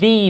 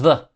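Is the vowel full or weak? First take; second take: full; weak. First: The word has a full vowel. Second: The word has a weak schwa vowel.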